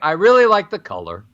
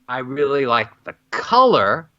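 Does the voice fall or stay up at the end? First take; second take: falls; stays up. First: The pitch falls at the end. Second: The pitch stays up at the end.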